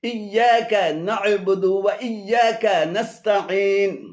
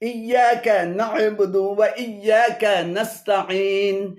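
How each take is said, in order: The two takes are said the same way.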